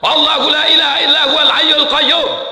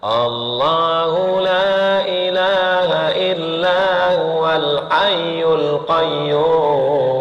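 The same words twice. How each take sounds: First: It is recited loudly and forcefully. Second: It is recited softly and quietly.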